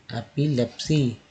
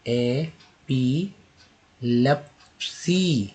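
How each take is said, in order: First: Said in the usual way. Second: epilepsy drawn out very slowly; slow syllable demo. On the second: Shown as a demonstration. Teacher slowly modelling epilepsy. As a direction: stretch epilepsy for learners. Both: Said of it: "next देखिए".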